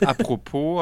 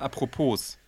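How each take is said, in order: First: The final s is silent. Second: The final s is pronounced. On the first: The speaker calls it right. "Statt apropos" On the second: The speaker calls it wrong. "Wie man es schreibt"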